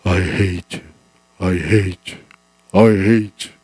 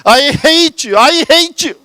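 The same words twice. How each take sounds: First: Distant echo. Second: Put-on high, loud angry child's shout; a hurt six-year-old screaming from the hill. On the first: Acted. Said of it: "여기저기서 음성이, 소리가 들려오는 거예요". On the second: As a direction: yell it off the hilltop. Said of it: "소리를 지릅니다".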